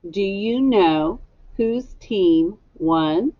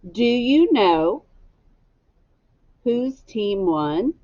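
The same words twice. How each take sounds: First: Said in the usual way. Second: Slow, rising question read for echo; slow model question. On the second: Shown as a demonstration. Teacher models the question for the class, slow and rising. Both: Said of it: "Echo me".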